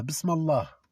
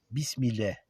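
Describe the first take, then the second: First: Bismillah said as bis-ma-lah, full Allah; bismillah with Allah sounded clearly at the end; right reading. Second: Bismillah said with an i, bis-mi-leh; bismillah sounded as bis-mil-leh, the wrong way; wrong reading. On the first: Teacher gives the Allah reading, bis-ma-lah. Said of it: "Ou alors vous dites Allah". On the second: Teacher imitates students' wrong bismillah, bis-mi-leh. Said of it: "Donc vous êtes en train de dire ça". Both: Shown as a demonstration.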